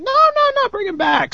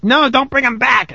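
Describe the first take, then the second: First: Very high, squeaky imitation of begging; mock pleading guest. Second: Raised-pitch imitation of an objection; higher mimicking voice, same volume; mock protesting guest. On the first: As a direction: mimic an eager fan in falsetto. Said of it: "other people are like". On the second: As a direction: lightly act out a listener's protest. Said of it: "some of your guests are like".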